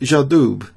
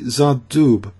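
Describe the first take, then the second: First: It begins with a hard J sound. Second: It begins with a soft ZH sound. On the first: The speaker calls it wrong. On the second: The speaker calls it right.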